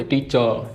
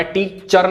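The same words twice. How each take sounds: First: "टीचर" said as "टीचə", R dropped; no audible R at the end of "टीचर"; barely-there R. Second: "टीचर" with its final R sounded; the over-clear "टीचर", R and all; R pronounced. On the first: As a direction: let "टीचर" end on a loose schwa. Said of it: "पता ही नहीं चलता आर बोला है". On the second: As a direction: close "टीचर" firmly on an R. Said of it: "वहाँ पे टीचर नहीं बोलते". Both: Shown as a demonstration.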